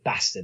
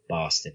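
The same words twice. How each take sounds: First: It is said with a northern English accent. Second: It is said with a southern English accent.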